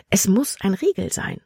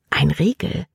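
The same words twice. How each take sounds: First: Breathless whisper, to herself. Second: Said in the usual way. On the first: Acted. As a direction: whisper the realisation under your breath. Libby flüstert ihre Vermutung. (geflüstert, leise zu sich selbst)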